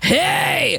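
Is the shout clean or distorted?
distorted. The shout is gritty with scratchy white noise. The speaker calls it right. "you need to add distortion"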